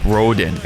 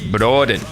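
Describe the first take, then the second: First: The R is a smooth, untapped R. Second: The R is a quick single tap. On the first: The speaker calls it wrong. "it's not Broden" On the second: The speaker calls it right. "tap the R"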